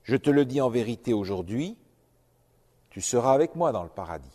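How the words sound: The pause comes after 'aujourd'hui'.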